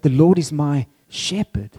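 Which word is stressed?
shepherd. The stress falls on the word shepherd. "God is being described as a shepherd"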